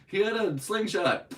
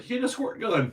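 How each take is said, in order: First: Hammed-up high, loud cop voice; mock excuse. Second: High, loud mocking cop voice; mock excuse. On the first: Mocking the cop with another silly excuse, mock excuse. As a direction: cry out a ridiculous excuse, mockingly. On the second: Mocking the cop who shot a kid, mock excuse. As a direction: imitate a panicked excuse, hammed-up.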